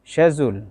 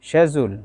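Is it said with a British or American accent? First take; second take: British; British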